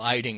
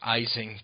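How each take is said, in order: First: The middle consonant sounds like a d. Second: The middle consonant sounds like an s. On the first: The speaker calls it right. "Paul Eiding, not Eising" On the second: The speaker calls it wrong. "not Eising"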